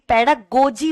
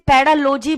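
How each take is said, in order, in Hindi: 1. इस शब्द का उच्चारण 'G' की ध्वनि के साथ होता है। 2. इस शब्द का उच्चारण 'L' की ध्वनि के साथ होता है। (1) "ये पैडागोजी होता है" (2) "ये पैडालोजी नहीं होता"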